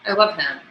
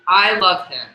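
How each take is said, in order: First: It is said with some natural expression. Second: It is said in a flat, robotic voice.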